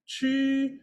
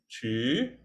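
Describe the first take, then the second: First: The pitch stays high and level. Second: The pitch rises from mid to high.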